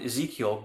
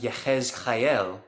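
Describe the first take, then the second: First: The name is pronounced the English way. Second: The name is pronounced the Hebrew way. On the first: "as we would say in English" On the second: "in Hebrew it's pronounced Yehezkael"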